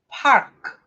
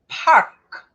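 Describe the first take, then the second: The two takes are said the same way.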